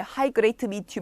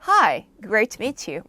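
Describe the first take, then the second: First: It sounds stiff and recited, without real feeling. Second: It sounds bright and lively, like a real greeting. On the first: It sounds like reciting a textbook phrase. The speaker calls it wrong. "영어 말하듯이 ... 막 이러지 마시고" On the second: It sounds like really meeting someone. The speaker calls it right. "진짜 사람 만났듯이 얘기해볼게요"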